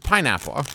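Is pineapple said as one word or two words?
one word. It is said as one single word. "as opposed to pineapple"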